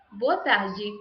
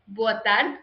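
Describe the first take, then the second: First: "Boa tarde" with tarde as "ta-jee"; Brazilian pronunciation. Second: "Boa tarde" with tarde as "tard"; Portugal pronunciation. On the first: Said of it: "In Brazil". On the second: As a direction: European take, no vowel after the d in tarde. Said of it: "In Portugal". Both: Shown as a demonstration.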